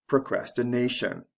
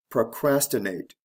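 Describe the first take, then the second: First: "procrastination" stressed procrasti-NA-tion; stress before the ending. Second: "Procrastinate" stressed pro-CRAS-ti-nate; stress on second syllable. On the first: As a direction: land on NA in "procrastination". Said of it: "the stress comes right before the ending". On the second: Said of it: "third syllable from the end is actually the second". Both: Shown as a demonstration.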